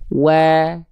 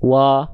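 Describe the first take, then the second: First: The vowel is made thin, lips slightly smiling. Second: The vowel is full, not made thin. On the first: The speaker calls it right. "tipiskan pelafalannya" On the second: The speaker calls it wrong. "nggak dapet tipisnya"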